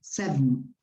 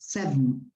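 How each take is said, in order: First: The second vowel is dropped, shortening the word. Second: The same.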